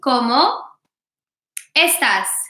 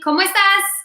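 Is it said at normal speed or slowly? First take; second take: slowly; normal speed. First: It is said slowly. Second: It is said at normal speed.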